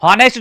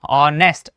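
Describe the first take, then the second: First: हॉनेस्ट with the initial h sounded; wrong pronunciation. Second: ऑनेस्ट with silent h; right pronunciation. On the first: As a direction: say हॉनेस्ट with an audible h at the start. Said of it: "जो बोलेंगे wrong हो जाएगा". (हॉनेस्ट में शुरुआती 'ह' बोलकर गलत उच्चारण) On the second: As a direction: start ऑनेस्ट straight on the vowel, no h. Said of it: "right क्या होगा?". (ऑनेस्ट, बिना 'ह' के सही उच्चारण) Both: Shown as a demonstration.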